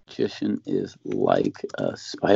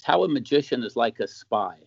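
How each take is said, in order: First: Much lower, slow movie-trailer read of Magician is Like a Spy; dramatic title voice. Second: Said in the usual way. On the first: Shown as a demonstration. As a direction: announce it like a film trailer. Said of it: "Let's see, How a". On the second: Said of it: "I actually wrote some stuff".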